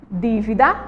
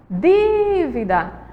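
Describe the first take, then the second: First: Said in the usual way. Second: DÍVIDA called slowly, DÍ stretched long; calling the word out. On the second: Shown as a demonstration. Teacher shows pupils the stressed syllable, long DÍ in dívida. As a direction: call "dívida" with a long held DÍ. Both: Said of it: "Vamos chamar elas".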